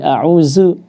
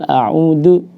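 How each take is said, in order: First: The middle consonant is a z sound. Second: The middle consonant is a d sound. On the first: "baca dengan zai" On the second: "dengan dal"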